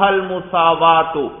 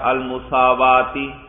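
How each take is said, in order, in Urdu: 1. لفظ کا آخری حرف علت u ہے۔ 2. لفظ کا آخری حرف علت i ہے۔ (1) "چاہیں تو اس کو مرفوع پڑھ لیں" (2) "اگر اس پر آپ پڑھیں جر"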